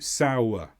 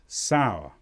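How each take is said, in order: First: The word is said with two syllables. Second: The word is said with one syllable. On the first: "but usually as two" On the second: "Some people will make it one sound"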